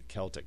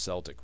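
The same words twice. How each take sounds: First: The word begins with a hard K sound. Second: The word begins with a soft S sound. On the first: The speaker calls it wrong. "The German is more the hard K" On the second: The speaker calls it right. "it should always be pronounced Celtic"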